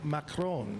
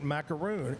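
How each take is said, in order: First: The word ends with a short 'ron' sound. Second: The word ends with a long 'roon' sound. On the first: The speaker calls it right. "It's Macron" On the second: The speaker calls it wrong. "It isn't macaroon"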